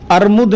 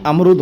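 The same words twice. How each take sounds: First: "अर्मुद" said with r before m, ar-mud; the incorrect "अर्मुद", r then m; wrong form. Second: "अमरुद" said with m before r, am-rud; the correct "अमरुद", m then r; correct form. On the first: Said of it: "अर्मुद नहीं". (गलत उच्चारण "अर्मुद") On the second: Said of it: "अमरुद होता है". (सही उच्चारण "अमरुद") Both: Shown as a demonstration.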